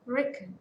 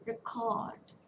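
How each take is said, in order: First: "Record" as REC-ord, second vowel reduced; short "Record", stressed at the start; first-syllable stress. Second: "Record" as re-CORD; light RE, drawn-out CORD in "Record"; second-syllable stress. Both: Shown as a demonstration.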